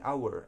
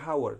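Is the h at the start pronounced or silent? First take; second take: silent; pronounced. First: The h at the start is silent. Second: The h at the start is pronounced. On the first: The speaker calls it right. "ini hour, hour pronunciation yang yang benarnya" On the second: The speaker calls it wrong. "hour harusnya dibaca hour, tapi enggak"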